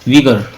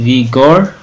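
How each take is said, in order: First: The second vowel is a short reduced 'uh' sound. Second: The second vowel is a full 'o' sound. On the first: The speaker calls it right. "लेकिन विगर पढ़ते हैं इसको" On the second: The speaker calls it wrong.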